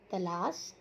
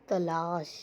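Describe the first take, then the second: First: Said in the usual way. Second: "तलाश" with a long, held second vowel; drawn-out emphasis. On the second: Shown as a demonstration. Teacher pointing out the correct word, "तलाश" drawn out slowly.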